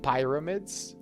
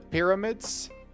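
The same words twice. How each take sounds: First: The first vowel is not a short i. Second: The first vowel is a short i. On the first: The speaker calls it wrong. "not pyramids" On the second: The speaker calls it right. "it's a short I"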